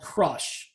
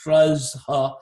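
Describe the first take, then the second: First: It is said like the word crush. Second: It is said with an extra final vowel. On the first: The speaker calls it right. "so you're in a band called Crush" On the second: The speaker calls it wrong. "don't try to pronounce it like Kruzha"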